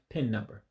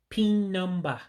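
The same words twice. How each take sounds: First: It is said with an American English accent. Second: It is said with an Igbo accent. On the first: "Instead of" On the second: "almost like saying the same thing in English, but with an accent"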